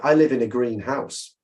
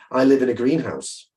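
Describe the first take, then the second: First: The stress falls on the word house. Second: The stress falls on the word green. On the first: The person's house is painted green. "so that's about the color" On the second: The person lives in a glass building for plants. "I would think that's a strange place to live"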